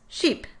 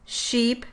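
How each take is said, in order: First: The vowel is cut noticeably shorter. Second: The vowel is held for a normal length. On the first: It is meant as the word with the lax vowel. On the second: It is meant as the word with the tense vowel.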